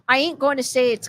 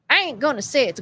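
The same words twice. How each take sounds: First: It is read in a plain, neutral accent. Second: It is read in a Southern US accent.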